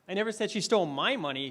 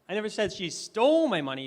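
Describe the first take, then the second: First: The stress is on the word my. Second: The stress is on the word stole.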